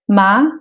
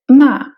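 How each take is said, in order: First: The syllable is said with a rising pitch. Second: The syllable is said with a falling pitch. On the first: "c'est le ton montant" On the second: "c'est le ton descendant"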